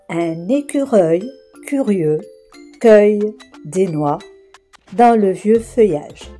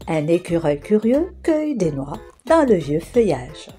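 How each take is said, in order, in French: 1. La phrase est prononcée lentement. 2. La phrase est prononcée vite. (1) "Je vais d'abord prononcer chaque phrase lentement" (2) "je la répéterai plus rapidement"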